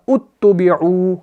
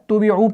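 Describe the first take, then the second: First: The word begins with a clear 'u' vowel. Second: The opening vowel is dropped and joined to before. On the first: Reading starts fresh from this word. "अगर यहां से पढ़ना चाहे तो ये बनेगा उत्तुबिउ" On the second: The word continues from the previous word. "नून को हम इस ता के साथ मिलाएंगे तो ये आपका हमज़तुल वस्ल ड्रॉप हो गया"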